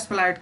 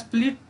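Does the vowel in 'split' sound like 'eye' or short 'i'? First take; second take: eye; short i. First: The vowel is an 'eye' sound. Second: The vowel is a short 'i' sound. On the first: The speaker calls it wrong. "न कि स्प्लाइट का" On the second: The speaker calls it right. "तो आप उसे स्प्लिट का use करेंगे"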